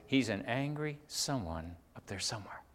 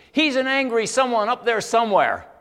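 First: Soft, subdued repeat of a quote; hushed and measured, for reflection; sober restatement. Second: Loud, high retort, imitating an angry woman; retold snap of anger, pitched way up; quick angry outburst. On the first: Retold or imitated. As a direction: let it sink in quietly. Preacher soberly restates her words. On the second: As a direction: fire it back instantly, at full voice. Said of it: "she goes like this. It was so quick".

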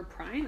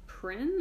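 First: "Prynne" said as pryne, long I. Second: "Prynne" said as prin, short I. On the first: Host unsure of a character's surname, trying a long I. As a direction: say "Prynne" to rhyme with shine. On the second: Host unsure of a character's surname, trying a short I. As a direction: say "Prynne" to rhyme with grin, pitched up. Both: Shown as a demonstration. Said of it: "I don't know how to pronounce that".

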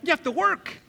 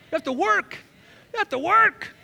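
First: Said in the usual way. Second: High, loud You have to work; preaching shout. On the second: Acted. Preacher repeating the point.

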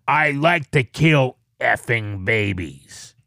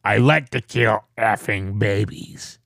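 First: Devilish growl. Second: Low, slow, menacing growl; scary devil voice. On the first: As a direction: growl it out like Satan himself. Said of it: "it sounded like Satan was saying it". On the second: Co-host hears him imitate the man and finds it scary, low devilish growl. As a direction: say it like the devil from The Omen. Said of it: "you actually sound very scary right now". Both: Retold or imitated.

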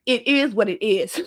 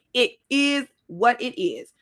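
First: Said in the usual way. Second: "It is what it is" slowed, word by word; emphatic slow repeat. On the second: Real, not acted. Giving listeners advice, "It is what it is" slow and emphatic. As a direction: space out "It is what it is" deliberately.

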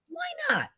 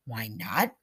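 First: Very high-pitched, falling appeal; high, insistent question. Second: Lower-pitched question, turning up at the end; low, pondering echo. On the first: Bella urges Zelda to speak up, high and insistent. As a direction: push the question right up high. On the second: Zelda ponders Bella's idea, echoing it low. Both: A narrator's reading.

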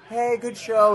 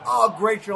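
First: Perfunctory, higher and louder "Hey, good show"; quick polite brush-off. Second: Higher, louder, delighted "Oh, great show"; mean it like a proud parent; genuine praise. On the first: Parent giving a brief brush-off after a bad show. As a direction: toss it off like a parent who didn't like it. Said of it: "it would be like". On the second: Parent lingering happily after a good show. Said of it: "they'd be like". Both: Retold or imitated.

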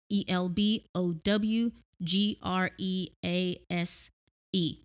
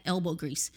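First: Each letter spoken slowly; spelling it out. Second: Said in the usual way. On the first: Shown as a demonstration.

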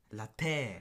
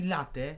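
First: "latte" said slowly with the stress on the final E; slow "latte" with the last syllable TE stressed; "latte" the French-style way, leaning on the E. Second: "latte" said the Polish way, stress on the first syllable; "latte" as Poles say it, stress on LA; wrong stress on latte. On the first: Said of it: "latte ma E jako akcent". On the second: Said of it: "to jest błąd". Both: Shown as a demonstration.

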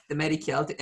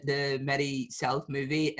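First: The Medi Celt, Celt said kelt with a hard k; corrected title. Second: The Medi South movie, saying South with an s-sound; mispronounced title. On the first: Host correcting the film title after the boxer's fix. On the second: Host saying the film title wrong to the boxer. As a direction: say South instead of Celt. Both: Real, not acted. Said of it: "It's Celt".

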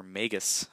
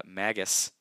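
First: Magus with a long A, as in "may"; first syllable of Magus rhymes with "vague"; long-a pronunciation. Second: Magus with a short A, as in "mag"; first syllable of Magus rhymes with "bag"; short-a pronunciation. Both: Shown as a demonstration. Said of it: "not sure how to pronounce it".

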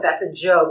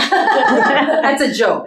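First: Said in the usual way. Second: Slow, laughing, higher and louder. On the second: Real, not acted. Telling the interviewer her joke, laughing.

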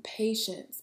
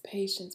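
First: Whispered. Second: Said in the usual way. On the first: Shown as a demonstration.

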